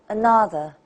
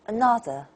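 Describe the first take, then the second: First: The middle syllable stands out over weak ones. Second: The middle syllable stands out over weak ones.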